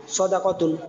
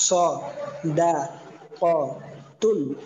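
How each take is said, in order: First: Said in the usual way. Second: স, দা, ক, তুন as separate drawn-out syllables with pauses; broken-up teaching pronunciation, a gap after each of স, দা, ক, তুন. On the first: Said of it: "reading". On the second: Shown as a demonstration. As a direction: say স, দা, ক, তুন one slow piece at a time. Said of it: "প্রত্যেকটা আলাদা আলাদা".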